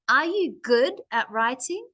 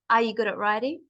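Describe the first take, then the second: First: The word 'good' is pushed and stressed. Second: It is said flat, with no word stressed. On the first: The speaker calls it right. "that's the main part of the question. Good" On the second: The speaker calls it wrong. "my voice sounds very flat and boring"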